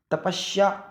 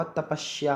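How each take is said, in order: First: तपस्या said "tapashya", with sh. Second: Said in the usual way. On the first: Shown as a demonstration. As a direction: slur the s of तपस्या into sh, "ta-pash-ya". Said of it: "नहीं होगा". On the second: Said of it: "होगा".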